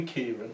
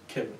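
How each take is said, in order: First: Kieran with a long "ee" first vowel; Kieran, first syllable drawn out as in "key"; standard pronunciation. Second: Kiran with a short i, like "Kirrun"; Kiran, short first syllable, no long "ee"; nan's pronunciation. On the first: Shown as a demonstration. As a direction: say Kieran as "KEER-un". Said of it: "she would never call me". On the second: Retold or imitated. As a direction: say Kiran with the vowel of "kit". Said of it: "that's how she said it".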